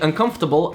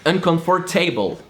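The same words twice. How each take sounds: First: It is said with a standard English accent. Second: It is said with a French accent, every letter pronounced. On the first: "instead of saying uncomfortable" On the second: "I said uncomfortable"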